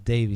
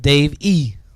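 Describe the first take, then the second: First: The name flows smoothly as one word. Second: The name is split, with a hard final E. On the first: The speaker calls it right. "it's Davey, ... so it's real smooth. It's like Davy, just like baby" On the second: The speaker calls it wrong. "not Dave E"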